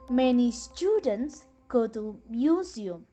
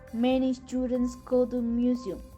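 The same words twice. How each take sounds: First: It has varied pitch and a break after students. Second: It is said flatly, without a break after students. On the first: "you apply the pitch, stress, and junction pattern" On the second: "When you say a sentence with a super segmenta"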